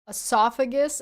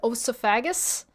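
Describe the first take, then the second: First: The word begins with an 'ee' sound. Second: The word begins with an 'oh' sound. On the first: The speaker calls it right. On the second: The speaker calls it wrong.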